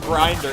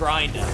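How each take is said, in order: First: It is said with the final r pronounced. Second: It is said in a Boston accent, dropping the r.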